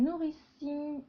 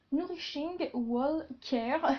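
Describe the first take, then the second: First: Said in the usual way. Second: Slow, hammed-up English accent on the brand name; slow playful English accent; mock English accent. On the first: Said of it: "mon magnifique accent anglais". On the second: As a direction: say it like a proud but clumsy English speaker. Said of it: "Vous admirez mon, mon magnifique accent anglais".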